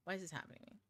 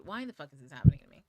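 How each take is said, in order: First: The same complaint dropped to a much softer, deflated murmur; quiet repeat. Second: Loud, fast frustrated cry to the sky; exasperated outburst. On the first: Repeating the complaint to viewers, soft and deflated. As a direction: let the frustration drain out, almost to yourself. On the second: Venting to viewers about the chaotic energy, a loud exasperated outburst. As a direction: blurt it out like everything's going wrong at once. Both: Retold or imitated.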